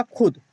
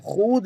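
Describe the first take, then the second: First: "खुद" with a short u, khud, pitched higher; quick short vowel in "खुद"; waw left unread. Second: "खुद" drawn out to khood; spelling pronunciation. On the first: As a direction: say "खुद" as it is read, khud, without stretching. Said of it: "लेकिन पढ़ा क्या जाएगा?". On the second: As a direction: hold a long oo in "खुद". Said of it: "लिखा जाता है". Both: Shown as a demonstration.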